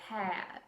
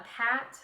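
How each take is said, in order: First: The vowel glides into an added uh sound. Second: The vowel is plain, with no uh glide.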